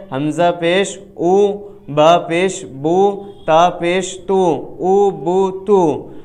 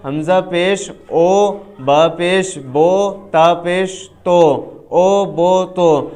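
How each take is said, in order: First: او بو تو with a pure long u, as in oo, slow and drawn out; correct maroof pesh. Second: او بو تو with an open o sound, as in go, slow and drawn out; wrong majhool pesh. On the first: Teacher showing students the correct maroof pesh, drawn out. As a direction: sound the pesh in او بو تو as a clean u, not o. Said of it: "معروف پڑھنے کا طریقہ کیا ہے؟". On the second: Teacher showing students the majhool pesh to avoid, drawn out. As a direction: show the mistake: pesh in او بو تو read as o, not u. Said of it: "تو ہمیں اس طرح نہیں پڑھنا ہے". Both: Shown as a demonstration.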